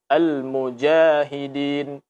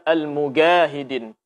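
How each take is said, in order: First: The jim is said as a j sound. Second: The jim is said as a hard g sound. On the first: The speaker calls it right. "Mesti dibaca dengan jim" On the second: The speaker calls it wrong. "Jangan sampai dibaca"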